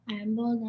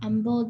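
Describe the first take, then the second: First: It is said at a quieter volume. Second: It is said at a louder volume.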